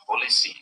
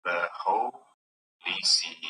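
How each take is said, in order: First: Said in the usual way. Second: "The holy sea" stretched very slowly, syllable by syllable; slow, divided reading of "The holy sea"; metrical scansion. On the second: Shown as a demonstration. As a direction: break "holy" apart, slowly. Scanning a verse line aloud.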